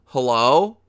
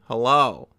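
First: Calling again, louder and insistent; louder repeat of the exasperated call; louder mock call. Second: Louder exasperated hello, falling; knock-knock hello to the viewer; calling out, mildly exasperated; mock calling out. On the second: Calling out to the audience.

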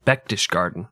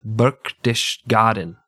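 First: "Berchtesgaden" with no R in the first syllable; R dropped. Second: "Berchtesgaden" slowly, with the first R sounded; R pronounced. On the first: Retold or imitated. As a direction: imitate someone saying "Berchtesgaden" as "Bektishgarden". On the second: Shown as a demonstration. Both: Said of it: "You didn't say the R".

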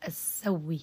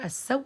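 First: السوي with merged w and faint final i; idgham with rawm. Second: السو ending on a held w, no final vowel; ibdal with idgham. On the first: Teacher shows the merged form again, rawm with faint i. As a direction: say السوي as "as-sawwi", a trace of kasra. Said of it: "لي فيها سكون محض ورم". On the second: Teacher explains merging the hamza, stops on a vowelless w. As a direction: say السو as "as-saww", hamza merged into the w. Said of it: "أبدلت وأدغمت بنفس". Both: Shown as a demonstration.

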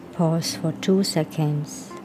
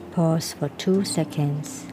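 No difference in how they are said.

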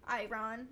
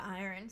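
First: "Iron" said as eye-RON; "Iron" rhyming with A A Ron; joke mispronunciation. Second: Said in the usual way. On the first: Shown as a demonstration. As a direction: split "Iron" into "I" plus "Ron". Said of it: "it's like A A Ron". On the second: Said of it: "but iron".

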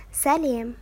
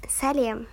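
The two takes are said the same way.

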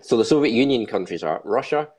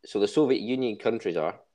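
First: Said in the usual way. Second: Words breaking into a real laugh. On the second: Real, not acted. Host reading the country list, laughing at his own joke. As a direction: try to read on while cracking up.

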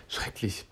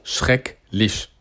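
First: Voiceless whisper under the breath. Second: Said in the usual way. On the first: Real, not acted. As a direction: whisper it to yourself. Repeats the word under the breath.

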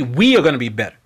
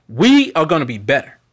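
First: WE stressed, falling and lower; "we" stressed with a falling close; stress on we again. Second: WE stressed with a rise; "we" pushed up and forward. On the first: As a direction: land hard on "we" and drop. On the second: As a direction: lean on the word "we", rising. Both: Shown as a demonstration. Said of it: "Not just me".

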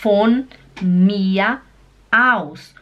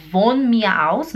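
First: "Von mir aus" slow, starting with an F sound. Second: "von" begun with a voiced V sound; wrong V sound. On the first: Teacher models for learners, slowly, "Von" with an F. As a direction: say "Von" as "fon", each word apart. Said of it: "imagina que tem um F". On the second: Teacher warns learners what not to say, voiced V in "von". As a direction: say "von mir aus" with a Portuguese-style V in "von". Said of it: "O V no alemão, ele faz som de F. Então não fala". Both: Shown as a demonstration.

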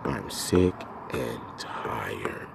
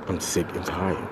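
First: Drained whisper. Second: Said in the usual way. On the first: Real, not acted. Repeats it drained.

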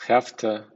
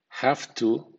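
First: "have to" as "aftə"; relaxed "hafta". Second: "Have to" said fully; full have to. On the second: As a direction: clear careful "have to". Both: Shown as a demonstration. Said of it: "sound gotta".

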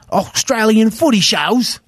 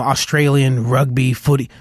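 First: Higher, slow, hammed-up Australian accent; horrible Australian accent. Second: Said in the usual way. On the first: Musician listing shows played before, bad Australian accent. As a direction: put on a bad Australian twang. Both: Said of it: "That was a horrible Australian accent again".

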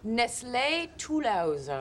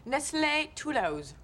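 First: "Nestlé Toulouse" repeated very slowly in French. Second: "Nestlé Toulouse" said the French way, a touch slow; French name. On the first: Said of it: "What was her name?". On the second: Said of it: "from her grandmother". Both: Acted.

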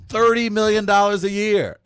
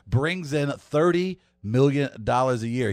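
First: Thirty punched high and loud; whopping thirty million; stressed amount. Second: Said in the usual way. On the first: Real, not acted. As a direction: hit thirty like a shocking number. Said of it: "bringing in a whopping". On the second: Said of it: "Yes, Mike Conley".

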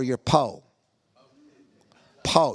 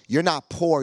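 First: "po" said as one drawn-out syllable, no r; po for poor. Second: Said in the usual way. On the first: Shown as a demonstration. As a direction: drop the r, say "po".

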